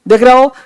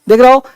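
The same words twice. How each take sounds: Both takes have the same delivery.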